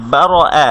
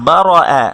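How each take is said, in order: Both takes have the same delivery.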